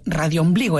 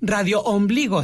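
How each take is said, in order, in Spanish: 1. Las dos palabras se dicen juntas, como una sola palabra. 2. Las dos palabras se dicen por separado, con una pausa. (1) "en una sola palabra" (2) "no es radio ombligo"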